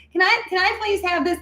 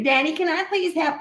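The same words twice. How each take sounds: First: Put-on very high, squeaky toddler pleading; whiny little girl. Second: Put-on a high, sugary kid's plea to daddy; sweet little girl. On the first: Three-year-old pleading with her dad for something, squeaky and high. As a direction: go way up into a tiny girl's begging voice. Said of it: "in my head, that's how I sounded". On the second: Little girl sweetly begging her daddy for a treat. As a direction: beg like a sweet toddler. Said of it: "that's how I sounded".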